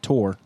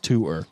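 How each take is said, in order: First: The vowel sounds like the one in 'more'. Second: The vowel sounds like the one in 'poor'. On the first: The speaker calls it wrong. "It's not Tor. That's T-O-R-E. That's a different word" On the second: The speaker calls it right. "This is tour"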